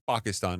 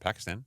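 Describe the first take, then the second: First: It is said with a native pronunciation. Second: It is said with an English pronunciation.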